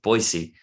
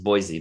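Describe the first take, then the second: First: Boise is said the way locals say it. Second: Boise is said the way outsiders say it. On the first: This is how people in the city say the name. "in that city they pronounce it Boise" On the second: This is how most people say the name. "everybody else is Boise"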